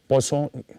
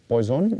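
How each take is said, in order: First: The name is pronounced with French sounds. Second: The name is pronounced with English sounds. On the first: The speaker calls it right. "it is a French name, it is uh, pronounced as Poisson" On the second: The speaker calls it wrong. "not Poisson"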